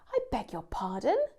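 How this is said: It sounds offended, like taking offence at something. The listener found what was said offensive. "If we're showing offence"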